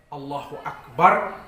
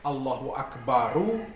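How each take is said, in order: First: Akbar ends on r with no vowel. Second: Akbar ends with an added u vowel.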